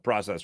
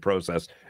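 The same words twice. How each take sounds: First: The word is said in the usual, plain way. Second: The word is said in a fancier-sounding way. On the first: The speaker calls it wrong. "I think we're saying process wrong" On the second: The speaker calls it right. "We should say process. It sounds a lot fancier"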